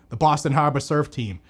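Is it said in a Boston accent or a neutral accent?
Boston. It is said in a Boston accent.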